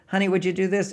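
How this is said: It is said in a real, sincere voice.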